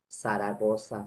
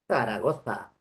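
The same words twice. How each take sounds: First: The z sounds are said as hissing s sounds. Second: The z sounds are said with the tongue between teeth. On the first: This is how speakers in the Americas say it. "nosotros no decimos así" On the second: This is the general Spanish pronunciation. "Se dice"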